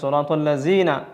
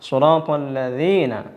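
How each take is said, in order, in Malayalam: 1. ഈ വ്യഞ്ജനം 'z' ശബ്ദം പോലെയാണ് ഉച്ചരിക്കുന്നത്. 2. ഈ വ്യഞ്ജനം 'th' ശബ്ദം പോലെയാണ് ഉച്ചരിക്കുന്നത്. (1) "ചിലർ സ്വിറാത്തല്ലസീന ഇങ്ങനെയും പറയുന്നതായിട്ട് കേൾക്കാൻ കഴിയും" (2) "സ്വിറാത്തല്ലദീന അല്ലദീന എന്നാണ് ഉച്ചരിക്കേണ്ടത്"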